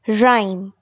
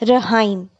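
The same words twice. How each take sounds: First: No h sound is pronounced after the r. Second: An h sound is pronounced after the r. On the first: The speaker calls it right. "letter H is silent in the word rhyme" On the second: The speaker calls it wrong. "We do not pronounce it as rhyme"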